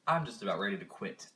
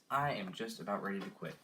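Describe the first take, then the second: First: Said in the usual way. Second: "am" stressed and spelled out, not "I'm"; "I am" said in full for emphasis. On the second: Real, not acted. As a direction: lean on "am" in "I am just about ready to quit".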